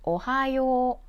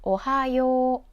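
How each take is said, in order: First: The final yo vowel is held long. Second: The final yo vowel is held long.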